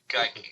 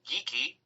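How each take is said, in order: First: The name is given its German-heritage pronunciation. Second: The name is given its Scottish pronunciation. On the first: "as someone from German heritage ... would indeed be Geike" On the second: "the Scots do say geeky"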